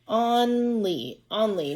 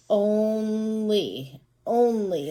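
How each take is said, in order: First: "Only" said as "ON-lee", short O as in hot; short O mispronunciation. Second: "Only" as "OHN-lee", long O as in own; long O sound. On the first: Teacher testing the first sound on a word, short-O "on-lee". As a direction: stretch "Only" as on-lee, then say it whole. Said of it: "we tried two different sounds". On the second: Teacher trying the other sound on the word, long-O "ohn-lee". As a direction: draw out "Only" with a long O, then say it whole. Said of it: "try the long sound of O now". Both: Shown as a demonstration.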